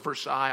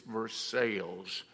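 First: It is said the French way, ver-SIGH. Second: It is said the Kentucky way, ver-SALES.

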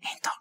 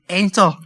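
First: The word is said in a soft whisper. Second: The word is said in a loud, firm voice. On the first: It is a timid, quiet suggestion. The speaker calls it wrong. "We don't need this whisper in the ear" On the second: It is a bold command with authority. The speaker calls it right. "We need a bold thing to say"

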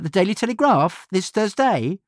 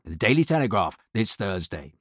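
First: The voice goes up at the end. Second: The voice goes down at the end.

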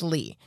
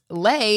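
First: The name ends in an 'ee' vowel. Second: The name ends in an 'ay' vowel. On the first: The speaker calls it right. "Their name is Lee" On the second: The speaker calls it wrong. "is actually not Lay"

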